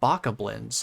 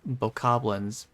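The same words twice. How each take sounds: First: The start sounds like a chicken's 'bock'. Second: The word sounds built on 'goblin'. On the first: The speaker calls it wrong. "like a chicken" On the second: The speaker calls it right. "because they're like goblins"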